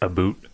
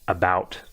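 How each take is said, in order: First: The vowel sounds like 'boot', a Canadian accent. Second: The vowel sounds like 'out', a non-Canadian accent.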